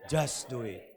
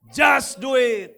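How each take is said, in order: First: It is said aloud in a normal voice. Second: It is said aloud and louder.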